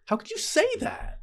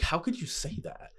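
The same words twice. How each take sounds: First: Very high-pitched, incredulous squeal; mock outraged protest. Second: Mildly indignant, pitch lifted a little, softer; retold hurt protest. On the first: Acting out a reply in the lovers' quarrel, squeaky outrage. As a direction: act out indignation leaping into high register. Same retort repeated, far higher. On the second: Acting out a reply in the lovers' quarrel, restrained indignation. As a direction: act out a restrained wounded objection.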